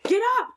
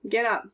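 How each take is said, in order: First: It is said in a lively, excited tone. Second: It is said in a flat, bored tone. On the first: Something exciting or urgent is happening. "But if you add an exclamation point" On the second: It is a plain statement. "with a period at the end ... Kind of boring"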